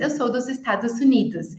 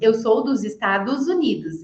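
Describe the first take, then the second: First: The S before the vowel keeps an S sound. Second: The S before the vowel turns into a Z. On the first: It sounds like an American learner speaking. The speaker calls it wrong. "por isso que um americano fala" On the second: It sounds like a native Portuguese speaker. The speaker calls it right. "o som do S vai ser transformado em um Z"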